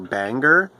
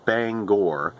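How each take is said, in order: First: The second syllable is a reduced 'ger'. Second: The second syllable is a full 'gore'. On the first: The speaker calls it wrong. "they pronounce it Banger" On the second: The speaker calls it right. "the actual pronunciation of the city is Bangor"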